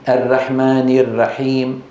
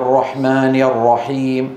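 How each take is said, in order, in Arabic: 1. صوت الراء مرقَّق. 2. صوت الراء مفخَّم. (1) "ولا يقولون" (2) "الراء يفخمون"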